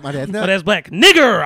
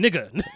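First: The word ends with an 'er' sound. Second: The word ends with an 'uh' sound. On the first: The speaker calls it wrong. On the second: The speaker calls it right.

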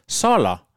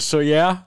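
First: The middle consonant is an L sound. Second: The middle consonant is a Y sound. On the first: This is how visiting Danes said the name. The speaker calls it wrong. "der blev udtalt Soller" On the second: This is how the name should be said. The speaker calls it right. "jeg er ret sikker på, at det skal udtales Soyer"

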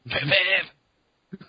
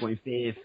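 First: It is said in a Cartman impression. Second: It is said in his normal voice.

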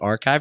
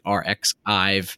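First: It sounds just like the word archive. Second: The middle is said as the letter X. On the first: The speaker calls it right. "I never pronounced it Archive" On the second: The speaker calls it wrong. "it was like RxIve"

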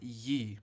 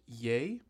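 First: The vowel sounds like the one in 'see'. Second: The vowel sounds like the one in 'say'. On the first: The speaker calls it wrong. "and not Ye" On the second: The speaker calls it right. "is pronounced Ye"

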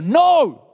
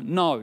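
First: It is said with a raised, loud voice. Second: It is said at a normal volume. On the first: A parent insists because the child is not listening. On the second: A parent calmly refuses a child.

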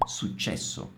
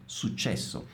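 Both takes have the same delivery.

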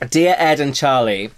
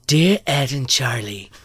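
First: It is read in the speaker's own normal voice. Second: It is read in a put-on impersonated voice.

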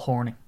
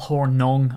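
First: The last syllable sounds like 'ning'. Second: The last syllable sounds like 'nung'. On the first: The speaker calls it wrong. "instead of Horning, but it's just my Irish accent" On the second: The speaker calls it right. "I should probably pronounce it correctly"

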